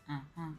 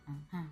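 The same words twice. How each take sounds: The two takes are said the same way.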